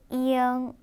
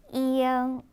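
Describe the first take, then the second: First: A slight glide comes before the nasal ending. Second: A slight glide comes before the nasal ending.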